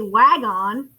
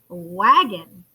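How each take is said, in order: First: It is said slowly as two separate parts. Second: It is said quickly as one smooth word. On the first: "we might say wag on" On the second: "if you say it quickly enough"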